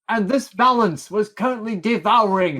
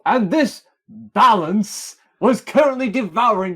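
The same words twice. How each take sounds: First: The words 'this balance' get no special emphasis. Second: The words 'this balance' are said with clear emphasis. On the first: The speaker calls it wrong. "No, you didn't" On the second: The speaker calls it right. "Well, I do now"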